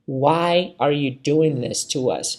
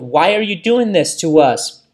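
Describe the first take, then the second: First: The sentence is said at a slower pace. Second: The sentence is said at a faster pace.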